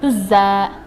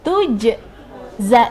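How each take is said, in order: First: The j sound merges into a doubled z. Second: A clear bouncing j is heard before the z. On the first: The speaker calls it wrong. "Tidak dibaca tujza atau tuzza" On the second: The speaker calls it right. "tapi tujza. Diperjelas lagi antara huruf jim sukun e, dengan huruf zai"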